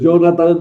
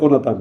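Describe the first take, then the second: First: The name is said with an English TH sound. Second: The name is said with a plain T sound. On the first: The speaker calls it wrong. "eso es muy inglés, pero no es hebreo ni, ni español tampoco" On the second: The speaker calls it right. "por favor, pronunciar Jonatán"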